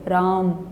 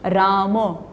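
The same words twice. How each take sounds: First: The lips stay closed and no vowel follows m. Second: The lips open and a vowel follows m. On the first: "होठ बंद रह गए, म में अ ही नहीं बोला" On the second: "म बोलते हुए म के बाद होठ खुलेंगे"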